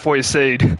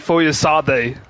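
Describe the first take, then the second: First: The name has an anglicized, Englished pronunciation. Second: The name has its native, non-anglicized pronunciation. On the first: The speaker calls it wrong. "not Foyesade. I, I kind of whitewashed his name" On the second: The speaker calls it right. "it's really"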